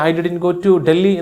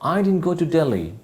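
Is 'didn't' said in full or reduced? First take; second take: full; reduced. First: 'Didn't' is said in full, with two syllables. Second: 'Didn't' is reduced to one short syllable. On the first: The speaker calls it wrong. "എന്ന് പറയുന്നേക്കാൾ" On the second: The speaker calls it right. "നല്ലത് I ഡിൻ go to Delhi എന്ന് പറയുന്നല്ലേ"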